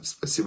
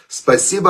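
First: It is said flatly, without any feeling. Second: It is said warmly, with heartfelt feeling. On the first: The thanks is only a formality. The speaker calls it wrong. "Это я сейчас сказал спасибо без эмоций" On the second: The thanks is sincerely felt. The speaker calls it right. "сказано с тоном голоса, в котором звучит настоящая благодарность"

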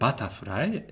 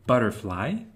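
First: It is pronounced with Japanese sounds. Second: It is pronounced with English sounds.

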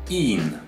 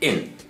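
First: The vowel is held long. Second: The vowel is kept short. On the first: The speaker calls it wrong. "some Chinese people might pronounce as in" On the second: The speaker calls it right. "but it's in. ... it should be a very short sound"

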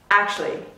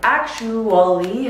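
First: The word is said with two syllables. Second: The word is said with four syllables. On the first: "Sometimes it can get reduced to two" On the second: "has four syllables"

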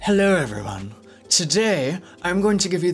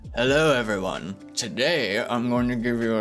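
First: The voice is airy, with breath audible. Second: The voice is tight, with no breath. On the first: The voice hints at some androgyny. "There's fluent air coming through" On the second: The voice sounds plainly masculine. "if there was no air coming out, he would sound more like"

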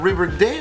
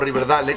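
First: The name is pronounced with English sounds. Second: The name is pronounced with Spanish sounds. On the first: This is how the name is really said. The speaker calls it right. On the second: This is how it was said in childhood without knowing better. The speaker calls it wrong.

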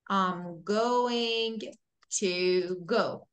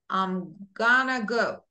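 First: Going to is said as two full words. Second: Going to is reduced to gonna. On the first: "for be going to say, for example" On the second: "We say I'm gonna go"

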